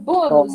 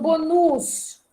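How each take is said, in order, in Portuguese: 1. A sílaba tônica é a primeira. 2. A sílaba tônica é a última. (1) "É paroxítona. Eu digo bônus" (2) "e não bonus"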